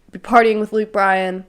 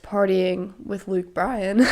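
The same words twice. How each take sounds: First: Said in the usual way. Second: Voice crack. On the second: Real, not acted. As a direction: voice cracking on the rising end. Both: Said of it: "voice crack".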